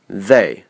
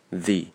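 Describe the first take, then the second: First: Said in the usual way. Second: "they" reduced to a short "the"; weak form. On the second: Shown as a demonstration. Teacher showing the unstressed pronoun, weak "the" for "they". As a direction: shorten "they" until it sounds like "the". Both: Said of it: "they被弱读成the".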